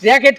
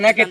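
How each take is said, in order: First: The word begins with an R sound. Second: The word begins with an N sound. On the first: The speaker calls it right. "এটা র্যাকেট খেলা" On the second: The speaker calls it wrong. "এটা নেকেট না"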